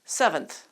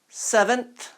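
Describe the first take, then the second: First: The second syllable is quicker with a soft th. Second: The second syllable is slower with a strong th.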